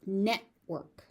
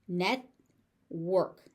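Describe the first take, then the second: First: Said in the usual way. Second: "Network" as net, pause, work; syllable by syllable. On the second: Shown as a demonstration. Teacher sounding out "Network" for learners, syllable by syllable. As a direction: split "Network" into two beats.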